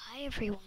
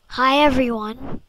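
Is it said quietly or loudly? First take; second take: quietly; loudly. First: It is said quietly. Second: It is said loudly.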